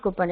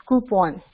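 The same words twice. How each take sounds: First: "coupon" as KOO-pun; mispronounced coupon. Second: "coupon" as KOO-pon; full, open o at the end of "coupon"; corrected coupon. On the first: Teacher showing the form to avoid, "coupon" as KOO-pun. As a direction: swallow the second vowel of "coupon". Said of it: "It's not coupon". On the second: Teacher giving the correct word, "coupon" as KOO-pon. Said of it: "It's not coupon, it's coupon". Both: Shown as a demonstration.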